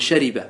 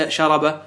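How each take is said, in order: First: شرب said shariba, i after the r; correct vowelling. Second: شرب said sharaba, a after the r; wrong vowelling. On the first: Teacher correcting the student's error, شرب properly voiced shariba. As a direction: give the proper شرب as sha-ri-ba. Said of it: "تقول شرب". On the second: Teacher warning what not to say, شرب mispronounced as sharaba. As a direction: give the faulty شرب as sha-ra-ba. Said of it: "فلا تقول". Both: Shown as a demonstration.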